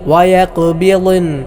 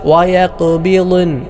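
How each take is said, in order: No difference in how they are said.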